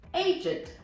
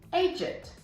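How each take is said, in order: First: It is said in a British accent, ending in 'id'. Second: It is said in a British accent, ending in 'id'.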